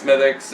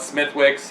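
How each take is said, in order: First: The name is said without a 'w' sound. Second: The name is said with a 'w' sound. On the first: The speaker calls it right. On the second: The speaker calls it wrong.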